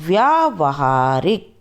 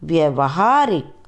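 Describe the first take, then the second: First: The vowel after 'vy' is long. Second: The vowel after 'vy' is short. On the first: The speaker calls it right. "फिर हम शुद्ध उच्चारण करके बताएंगे" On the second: The speaker calls it wrong. "पहले हम आपको अशुद्ध वर्ण बताएंगे"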